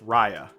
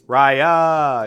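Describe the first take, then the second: First: The name is said at normal volume. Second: The name is shouted loudly.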